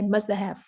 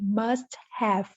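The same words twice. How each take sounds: First: The words run together into a reduced form. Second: Both words are said fully and separately. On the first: "but they say must have" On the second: "don't pronounce clearly must have"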